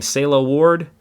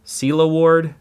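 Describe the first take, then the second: First: "Selah" said as SAY-lah, first vowel like "say"; unsure name pronunciation. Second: "Selah" said as SEE-lah, first vowel like "see"; retry "Selah" with an ee sound, SEE-lah Ward; corrected name pronunciation. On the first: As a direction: read "Selah" with an ay sound, SAY-lah Ward. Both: Real, not acted. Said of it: "I'm sure I'm saying that wrong".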